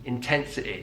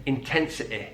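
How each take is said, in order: First: The final vowel has the Mancunian 'i' sound. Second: The final vowel has the Mancunian 'i' sound.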